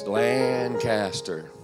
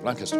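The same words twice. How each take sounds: First: It is said with its syllables fully spoken. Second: It is squeezed into about one syllable.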